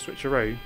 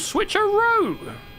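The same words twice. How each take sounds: First: The word is said flatly, without extra energy. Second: The word is said loudly with great energy. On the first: "It's not the" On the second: "He puts everything into it"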